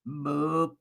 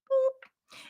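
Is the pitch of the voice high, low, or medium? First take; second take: low; high. First: It is said in a low, deep voice. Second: It is said in a high-pitched voice.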